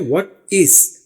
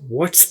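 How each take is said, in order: First: Two separate full words, with a clear vowel. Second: One short syllable with the vowel dropped. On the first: "अब ये है व्हाट इज" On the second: "जब बोलते हैं तो इसको व्हाट्स पढ़ते हैं"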